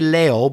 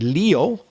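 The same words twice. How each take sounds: First: The word is said with Spanish pronunciation. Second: The word is said with English pronunciation. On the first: "In Spanish, you say Leo" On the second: "in English, we pronounce it Leo"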